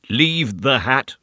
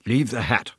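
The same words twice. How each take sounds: First: Slow, very distinct, muffled; distinct through a cloth. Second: Muffled through a cloth. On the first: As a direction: say each word clearly through cloth. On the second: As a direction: speak through a cloth over the mouth. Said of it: "said her visitor in a muffled voice". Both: A narrator's reading.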